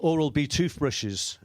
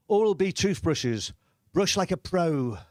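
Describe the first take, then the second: First: Said in the usual way. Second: Slow, measured slogan read; lightly put-on advert voice; advert voice-over. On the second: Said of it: "and it said".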